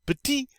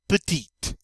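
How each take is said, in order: First: High-pitched PETIT with no T; silent final T. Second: PETITE closing on an audible T; sounded final T. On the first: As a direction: leave "petit" open on the ee. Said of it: "We don't say that final T". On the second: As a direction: finish "petite" with a released T. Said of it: "when we add the E". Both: Shown as a demonstration.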